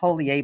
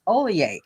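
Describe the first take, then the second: First: The name begins with an audible H sound. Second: The name begins with no H sound. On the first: The speaker calls it wrong. "I called him Holier" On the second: The speaker calls it right. "but it's Olier, obviously"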